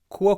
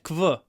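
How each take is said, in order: First: It sounds like k followed by w. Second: It sounds like k followed by v. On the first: The speaker calls it right. "You need to have an open mouth" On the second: The speaker calls it wrong. "If your mouth's closed, you'll get kv"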